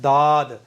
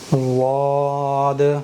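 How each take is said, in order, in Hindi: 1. पहली ध्वनि हल्की, plain d है। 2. पहली ध्वनि भारी, मोटी, emphatic d है। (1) "तो ये साफ साफ दाल बन रहा है" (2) "सही है"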